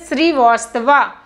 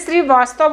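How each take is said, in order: First: The name ends with a final 'a' vowel. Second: The name ends without a final vowel sound. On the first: This follows the written spelling. "Real में श्रीवास्तवा, spelling आता है V A" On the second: This is how people usually say it. "बोलते हैं"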